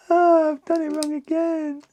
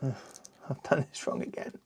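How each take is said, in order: First: High, hammed-up groan of frustration; high mock-frustrated whine; mock exasperation. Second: Soft, muttered under breath; breathy muttered annoyance; muttered to self. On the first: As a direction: whine it like a cartoon. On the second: Real, not acted. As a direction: mutter it to yourself. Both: Frustrated at a building mistake.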